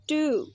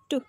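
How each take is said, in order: First: "to" with a full, long 'oo'; strong form. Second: "to" short, with reduced vowel; weak form. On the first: Teacher showing learners strong forms, "to" long and full. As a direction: say "to" like 'too'. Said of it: "In a strong form we pronounce". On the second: Teacher showing learners weak forms, "to" short and reduced. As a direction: cut "to" to a brief unstressed syllable. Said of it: "but in a weak form". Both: Shown as a demonstration.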